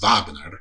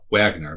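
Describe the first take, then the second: First: The name is said differently from its spelling. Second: The name is said the way it is spelled. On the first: The speaker calls it right. "but it's pronounced Wagner" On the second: The speaker calls it wrong. "it's spelled Wagner"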